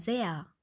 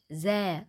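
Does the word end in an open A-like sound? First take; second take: yes; no. First: The word ends in an open A-like sound. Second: The word ends without an open A-like sound. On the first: The speaker calls it right. "sondern sehr" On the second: The speaker calls it wrong. "Genauso sagen wir nicht sä"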